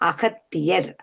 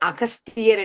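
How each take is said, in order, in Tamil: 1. பெயரின் நடுவில் t ஒலி இருக்கிறது. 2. பெயரின் நடுவில் s ஒலி இருக்கிறது. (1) "தமிழ் மொழியில உச்சரிக்கும் போது காவில உச்சரிப்போம்" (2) "நீங்கள் கூறிய போது அகஸ்தியர் என்றுதான் சொன்னீர்கள்"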